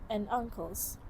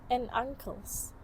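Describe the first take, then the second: The two takes are said the same way.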